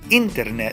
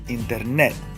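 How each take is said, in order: First: The stress falls before the last syllable. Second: The stress falls on the last syllable. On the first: The speaker calls it wrong. "I don't say internet" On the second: The speaker calls it right. "el acento tónico on the very last syllable"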